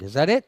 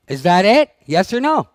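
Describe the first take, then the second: First: Said in the usual way. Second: Louder repeat demanding an answer; pushing harder. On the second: Real, not acted. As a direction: press the question on them again, louder.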